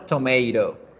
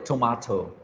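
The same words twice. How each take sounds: First: It is said with an American accent. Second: It is said with a British accent.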